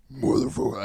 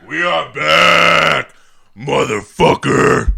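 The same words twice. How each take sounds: First: Half-effort try at a deep voice; deep voice demo. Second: Loud, slow, high hype shout; full-voiced show-opening shout. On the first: Shown as a demonstration. Host shows friends his voice, casual deep attempt. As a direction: try the word in a deeper voice, not fully committed. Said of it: "could probably go a little bit deeper". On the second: Host announces the show is back, slow loud bellow. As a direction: bellow it out, dragging each word. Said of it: "I don't have my full-blown voice".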